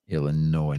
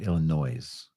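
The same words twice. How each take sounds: First: The final s is not pronounced. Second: The final s is pronounced. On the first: The speaker calls it right. "it it's silent" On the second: The speaker calls it wrong. "not Illinois"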